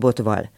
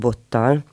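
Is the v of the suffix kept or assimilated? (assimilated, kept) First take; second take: kept; assimilated. First: The suffix keeps a separate v sound. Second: The suffix v merges into a doubled t. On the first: "hanem odaállsz majd egy botval" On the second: "nem azt mondják, hogy bottal"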